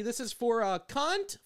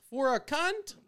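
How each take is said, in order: First: Barista call-out. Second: Barista call-out, louder. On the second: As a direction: call the name out across the counter. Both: Retold or imitated. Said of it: "like I'm ordering something at fucking Starbucks".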